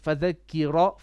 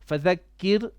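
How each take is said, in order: First: The word ends with an added vowel. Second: The word ends on a consonant. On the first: The speaker calls it wrong. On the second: The speaker calls it right.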